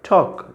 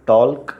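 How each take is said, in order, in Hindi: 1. इस शब्द में L की आवाज़ छोड़ दी जाती है। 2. इस शब्द में L की आवाज़ बोली जाती है। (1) "यहाँ भी एल का यूज़ नहीं है" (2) "टॉल्क नहीं पढ़ते हैं"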